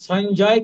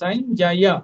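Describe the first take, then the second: First: The word ends without a final 'ya' syllable. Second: The word ends with a full 'ya' syllable. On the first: The speaker calls it wrong. "কিন্তু নয়" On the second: The speaker calls it right. "এটা হচ্ছে ইয় আপ আর বর্গীয় জ পূর্ণ"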